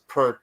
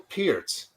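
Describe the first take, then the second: First: The vowel sounds like the one in 'pert'. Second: The vowel sounds like the one in 'peer'. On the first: The speaker calls it wrong. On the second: The speaker calls it right.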